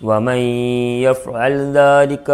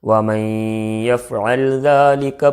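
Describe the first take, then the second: Both takes have the same delivery.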